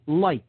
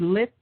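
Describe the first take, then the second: First: The vowel is a long i sound. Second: The vowel is a short i sound. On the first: "if you pronounce it with a long I, that's light" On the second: "Now you could say lit"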